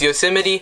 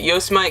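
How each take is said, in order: First: The name is pronounced the usual accepted way. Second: The name is pronounced the way it is spelled. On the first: The speaker calls it right. "It's Yosemite" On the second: The speaker calls it wrong. "Some people might pronounce it Yosemite because that's how it's spelled"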